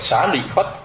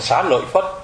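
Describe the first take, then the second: First: The middle syllable is said as short 'li'. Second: The middle syllable is said as 'loi'. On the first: This is the reading the transliterators intended. "người ta muốn mình đọc là Xá Lị Phất" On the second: This is the reading people actually use. "mình lại đọc là Xá Lợi Phất"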